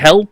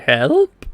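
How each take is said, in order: First: It is a yelled exclamation, falling at the end. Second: It is asked as a question, rising at the end.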